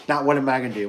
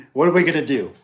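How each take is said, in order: First: Said in the usual way. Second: "we" pushed up and out, louder; "we" said louder, as a shared problem; stress on we. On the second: Shown as a demonstration. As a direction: lean hard on "we" in "What are we gonna do?".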